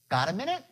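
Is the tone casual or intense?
casual. It is said in a light, relaxed tone. The request is no big deal. The speaker calls it right.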